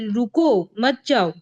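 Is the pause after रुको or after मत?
after रुको. The pause comes right after रुको.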